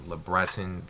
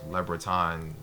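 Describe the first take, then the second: First: The name is said with non-French pronunciation. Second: The same.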